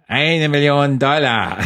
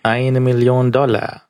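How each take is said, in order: First: Slower, even drier villain line, pitched up; bone-dry cheap villain, even drier. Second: Slow, dry, deadpan villain line. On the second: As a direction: deliver it bone-dry like a cheap villain. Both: Retold or imitated. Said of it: "noch trockener".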